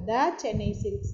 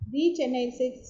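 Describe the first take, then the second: First: The word 'the' is said as 'thuh'. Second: The word 'the' is said as 'thee'. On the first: The speaker calls it right. "த Chennai silks தான் சொல்லணும்" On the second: The speaker calls it wrong. "தி Chennai silks சொல்லக்கூடாது"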